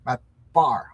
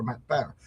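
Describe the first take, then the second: First: "Barr" with an open "ah" vowel; corrected name. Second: "Barr" said like "bear"; mispronounced name. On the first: Fixing his slip on a colleague's name, "Barr" corrected to an "ah" sound. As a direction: say "Barr" to rhyme with "car", punched louder. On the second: Getting a colleague's name wrong, "Barr" mispronounced as "bear". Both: Real, not acted. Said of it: "I always say his name wrong".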